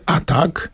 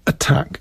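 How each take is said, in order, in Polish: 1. Akcent pada na pierwszą sylabę. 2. Akcent pada na drugą sylabę. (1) "Nie mówi się attack" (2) "mówi się attack in English"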